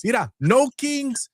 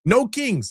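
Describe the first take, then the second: First: Slow mocking slogan. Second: Mocking slogan. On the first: Repeated slogan slower.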